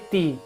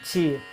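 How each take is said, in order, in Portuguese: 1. O t é simples e nítido, sem fricção. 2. O t é africado, soando como ch. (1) "é sempre ti" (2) "O carioca que fala o, ti, o T assim"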